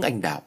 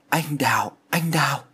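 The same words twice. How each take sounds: First: Said in the usual way. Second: Put-on a fevered young man calling a name, voice cracking a little; mildly broken, delirious murmur of a name; strained voice. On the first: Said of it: "nhưng hai tiếng". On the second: A narrator's reading. Delirious son calling a ghost's name, lightly strained voice. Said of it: "Giọng của Thiện lạc hẳn đi".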